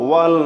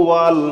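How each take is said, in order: No difference in how they are said.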